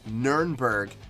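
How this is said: The name is said with a German pronunciation. This is how locals say it. "the German actual pronunciation is"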